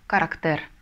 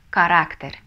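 First: The stress is on the third syllable. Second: The stress is on the second syllable. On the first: The speaker calls it wrong. "если не поставим, то получится характер" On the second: The speaker calls it right. "По-испански читается как характер"

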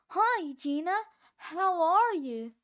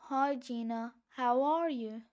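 First: It sounds friendly, as if smiling. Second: It sounds unfriendly, as if frowning.

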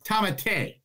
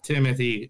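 First: The name is said unlike the usual English 'Timothy'. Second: The name is said like the usual English 'Timothy'. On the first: The speaker calls it right. "No, it's not Tamati. It's Tamate" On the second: The speaker calls it wrong. "the way everybody has always pronounced it"

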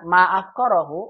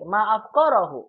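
First: It is said with a level pitch. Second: It is said with a raised high pitch.

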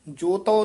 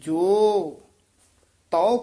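First: It is said joined, as one word joto. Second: It is said as two parts, jo tau. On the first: The speaker calls it wrong. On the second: The speaker calls it right.

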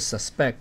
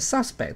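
First: The stress is on the second syllable. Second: The stress is on the first syllable. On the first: It is used as a verb. "动词是念suspect" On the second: It is used as a noun. "名词是念suspect"

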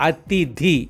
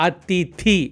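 The two takes are said the same way.

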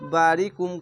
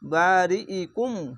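First: The word is said without the glottal stop and 'i'. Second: The word is said with a glottal stop and 'i'. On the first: The speaker calls it wrong. "অনেক সবাই বারি কুম কহে দেয়" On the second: The speaker calls it right. "এখানে হামজা জের ই উচ্চারণ হবে বারি ই কুম"

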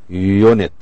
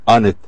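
First: The word begins with a 'yoo' sound. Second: The word begins with a plain vowel sound. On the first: The speaker calls it right. "We say unit" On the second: The speaker calls it wrong. "not unit"

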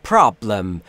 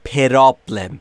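First: No vowel sound comes between p and r. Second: An extra vowel sound is added between p and r. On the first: The speaker calls it right. "بین P و R صدایی وجود نداره" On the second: The speaker calls it wrong. "نود و نه درصد زبان آموزا متاسفانه به دلیل آموزش اشتباه میگن problem"

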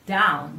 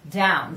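First: The d is pronounced the Italian way. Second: The d is pronounced the English way. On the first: "if you hear in Italian speaking English, it says down" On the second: "we don't have the D ... We don't say that"

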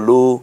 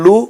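First: The vowel is drawn out long. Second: The vowel is said quickly and short.

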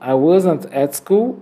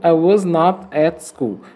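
First: Was and not merge into one short word. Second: Was and not are said as two words.

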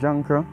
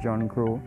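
First: The name is run together in a local pronunciation. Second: The name is said carefully as two separate words. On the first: "They call him Junker" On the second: "if I try to pronounce it correctly"

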